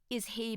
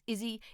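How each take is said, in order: First: Both words are said fully and separately. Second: The words melt together into one reduced form.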